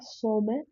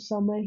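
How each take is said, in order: First: The first vowel sounds like 'oh'. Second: The first vowel sounds like 'uh'. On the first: The speaker calls it wrong. "इसको ऐसे pronounce नहीं करते" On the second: The speaker calls it right. "इसको समर ही pronounce करते हैं"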